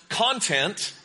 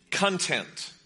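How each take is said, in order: First: "content" stressed on CON, like the noun; stress on first syllable. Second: "content" stressed on TENT, meaning satisfied; stress on second syllable. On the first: Preacher shows congregation one reading of content, first-syllable stress. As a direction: say "content" as CON-tent, drawn out. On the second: Preacher shows congregation the other reading of content, second-syllable stress. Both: Shown as a demonstration. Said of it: "It depends where you emphasize the syllable".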